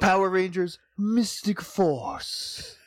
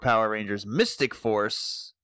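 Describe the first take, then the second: First: It is said with dramatic, showy flair. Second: It is said plainly, without extra flair.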